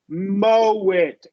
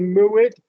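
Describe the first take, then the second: First: The first word has a long O vowel. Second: The first word has an oo vowel. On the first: The speaker calls it right. "but it's mow it, right? Oh, long O" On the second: The speaker calls it wrong. "I I get students to say "moo it""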